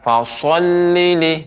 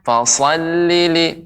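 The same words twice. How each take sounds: First: The first syllable is said with rounded lips. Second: The first syllable is thick with flat lips. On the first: The speaker calls it wrong. "jadi tidak fasallili" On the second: The speaker calls it right. "datar bibir bibir kita, tapi bagian dalamnya lidah kita yang kita naikkan"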